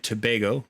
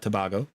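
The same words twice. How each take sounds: First: "Tobago" with a long AY in the middle, tuh-BAY-go; corrected pronunciation. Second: "Tobago" with an AH in the middle, tuh-BAH-go; mistaken pronunciation. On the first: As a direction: say "Tobago" to rhyme with "day-go". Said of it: "I've been corrected by Saf". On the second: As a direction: say "Tobago" with BAH as the stressed syllable. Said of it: "not Tobago". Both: Shown as a demonstration.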